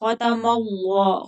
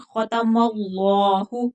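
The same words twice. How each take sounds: First: Said in the usual way. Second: खतमल्लाहु with a heavy ल्ला and a clear final हु, slow; full ending. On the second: Shown as a demonstration. Teacher giving the correct खतमल्लाहु. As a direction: finish on हु. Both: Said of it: "खतमल्ला नहीं".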